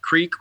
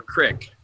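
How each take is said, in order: First: CREEK said with a long ee vowel. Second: CRICK said with a short i. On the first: Asking Rob which word he says, CREEK with long ee. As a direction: say creek to rhyme with seek. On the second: Asking Rob which word he says, CRICK with short i. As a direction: say crick to rhyme with brick. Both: Shown as a demonstration. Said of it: "do you say creek or crick".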